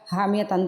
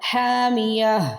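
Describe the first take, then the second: First: The word ends with a tan sound. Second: The word ends with a silent h sound. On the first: The word is read as connected, not paused on. "حامیہ تن تھا" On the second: The reader stops on the word. "تو ہم نے پڑھا حامیہ"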